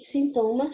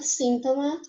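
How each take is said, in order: First: Sintoma with the stress on TO. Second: Síntoma with the stress on SÍN. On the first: Teacher shows the Portuguese word, stress on TO in sintoma. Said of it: "a segunda sílaba". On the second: Teacher shows the Spanish word, stress on SÍN in síntoma. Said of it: "já em espanhol é um síntoma". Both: Shown as a demonstration.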